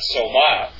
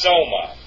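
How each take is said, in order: First: The stress is on the second syllable. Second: The stress is on the first syllable. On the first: The speaker calls it wrong. "It's not soma" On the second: The speaker calls it right. "the accent is over the omega"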